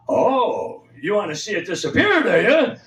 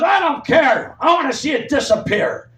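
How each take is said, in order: First: Sarcastic comeback. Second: Lunch lady shouting. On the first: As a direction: toss her line back at her mockingly. Teen sassing back at lunch lady. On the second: Lunch lady yelling at the kids over dirty dishes, mock shout. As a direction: bark it like the bossy lunch lady. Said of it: "She goes". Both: Retold or imitated.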